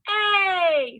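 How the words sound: The word is cheered loudly and excitedly. "Cheer it"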